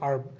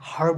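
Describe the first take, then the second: First: The word starts with a vowel, no h sound. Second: The word starts with an audible h sound. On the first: The speaker calls it right. "এটা হচ্ছে আর্ব" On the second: The speaker calls it wrong. "হার্ব হয় না"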